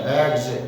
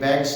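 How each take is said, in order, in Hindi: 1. यह शब्द खिंची हुई z की ध्वनि से खत्म होता है। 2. यह शब्द साधारण s की ध्वनि से खत्म होता है। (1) "जय के नीचे एक छोटा नुक्ता लगा देते हैं तो जय खींच के बोलते हैं जय" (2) "ये बैग्स नहीं होता"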